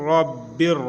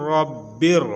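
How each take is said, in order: The two takes are said the same way.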